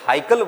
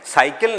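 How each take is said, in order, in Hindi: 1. शब्द की शुरुआत ह ध्वनि से होती है। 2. शब्द की शुरुआत स ध्वनि से होती है। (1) "हाइकल बोलते हैं" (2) "साइकिल नहीं बोलते"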